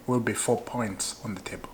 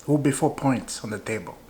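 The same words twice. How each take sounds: First: Quietly repeated. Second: Said in the usual way. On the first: Shown as a demonstration. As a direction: drop the volume, let it sink in. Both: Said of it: "Maybe you're not hearing me".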